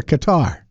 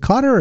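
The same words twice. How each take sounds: First: Qatar with the stress at the end; kuh-TAR pronunciation of Qatar; second-syllable Qatar. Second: Qatar with the stress up front; CUT-er pronunciation of Qatar; first-syllable Qatar. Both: Shown as a demonstration. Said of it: "I've heard both".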